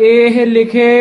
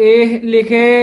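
Both takes have the same delivery.

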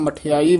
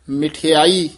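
First: The first syllable has an 'a' vowel. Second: The first syllable has an 'i' vowel. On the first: The speaker calls it wrong. "ਆਮ ਮਠਿਆਈ ਬੋਲ ਜਾਂਦੇ ਹਨ, ਸਿਹਾਰੀ ਛੱਡ ਜਾਂਦੇ ਹਨ" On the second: The speaker calls it right. "ਮਿਠਿਆਈ ਬੋਲਣਾ ਹੈ"

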